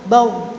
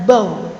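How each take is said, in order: First: The final r flows only slightly. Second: The same.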